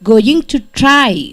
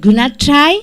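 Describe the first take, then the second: First: Each word is said fully and separately. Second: The words are reduced and run together. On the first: "changes into" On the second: "changes into gonna try"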